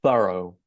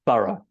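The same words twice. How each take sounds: First: "thorough" ending like the letter O; American pronunciation. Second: "thorough" ending in a schwa, "THUH-ruh"; British pronunciation. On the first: Teacher showing what Americans would say, "thorough" ending in "oh". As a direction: say "thorough" as "THUH-roh". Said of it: "like the English letter O". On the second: Teacher showing how the British pronounce it, "thorough" as "THUH-ruh". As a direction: end "thorough" on a neutral "uh". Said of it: "So that is a schwa". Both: Shown as a demonstration.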